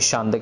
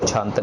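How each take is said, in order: First: It starts with 'sh' and ends in 't'. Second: It starts with 'chh' and ends in 't'. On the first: "ना ही शांत कहना है" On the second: "इसको छंत नहीं कहना"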